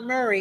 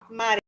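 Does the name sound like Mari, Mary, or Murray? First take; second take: Murray; Mari. First: The name sounds like 'Murray', with an 'uh' vowel. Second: The name sounds like 'Mari', with an 'ah' vowel. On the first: Someone else says the name this way. "It's not Murray" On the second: This is how Spanish speakers say the name.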